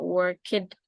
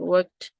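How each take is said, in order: First: The ending is an extra 'ed' syllable. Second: The ending is a short t sound. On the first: The speaker calls it wrong. "Atau ini bukan dibaca worked" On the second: The speaker calls it right. "tapi worked ya"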